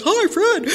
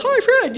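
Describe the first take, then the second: First: High, sing-song imitation of "Hi, Fred"; a lightly parodied dutiful response; mock group reply. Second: High, chorused "Hi, Fred" as a mild mock yell; mock group yell. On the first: Newcomer mimicking the room's greeting, high sing-song. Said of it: "I'm like". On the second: Whole meeting answering Fred, a mild high mock yell. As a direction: echo the whole room calling back. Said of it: "Everybody yells".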